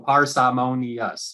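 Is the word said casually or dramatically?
dramatically. The word is said in an exaggerated, dramatic way. The word is treated as unusual and showy. The speaker calls it wrong. "Don't say, don't go parsimonious"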